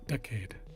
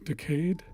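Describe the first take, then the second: First: The stress is on the first syllable. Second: The stress is on the second syllable.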